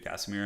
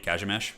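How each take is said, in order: First: The name is said with an English pronunciation. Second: The name is said with a Polish pronunciation. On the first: "the Western translation of it" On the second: "if you were to say say it correctly in Polish"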